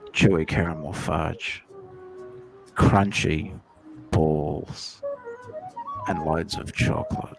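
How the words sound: It is said in a put-on narrator voice.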